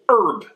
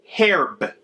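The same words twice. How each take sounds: First: The word starts with a vowel, no H sound. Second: The word starts with a clear H sound. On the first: The speaker calls it wrong. "It is not herb" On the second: The speaker calls it right. "you pronounce the H. It is herb"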